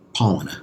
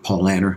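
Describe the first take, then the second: First: The final syllable ends in an 'ah' sound. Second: The final syllable ends in an 'er' sound. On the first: This is how it is said in Germany. "in Germany, the E R sounds, they pronounce like an ah" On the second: This is how it is said in the United States. "like we would say in the United States"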